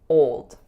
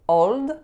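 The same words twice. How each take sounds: First: The O vowel glides straight into a dark L. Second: A pure O vowel followed by a light L. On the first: The speaker calls it right. "it should be old" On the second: The speaker calls it wrong. "don't say old"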